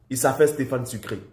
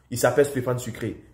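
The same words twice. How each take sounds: The two takes are said the same way.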